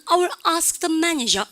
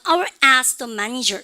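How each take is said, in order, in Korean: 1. 입을 크게 벌리는 열린 모음이 있는 영국식 억양입니다. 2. 코로 나는 비음 모음이 있는 미국식 억양입니다. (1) "영어 애들은" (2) "미국에서 여러분들 어학연수하면 ask, 그러니까 I will ask the manager 이렇게 얘기하고요"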